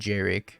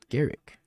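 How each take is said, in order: First: The name begins with a J sound. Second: The name begins with a hard G sound. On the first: The speaker calls it wrong. "I said Jarek. Apparently like an idiot" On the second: The speaker calls it right. "I learned"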